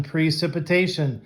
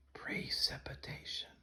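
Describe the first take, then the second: First: Said in the usual way. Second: Breathy whispered word. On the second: Shown as a demonstration. Teacher leading a whispered class repetition. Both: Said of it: "Let's do this one as a whisper".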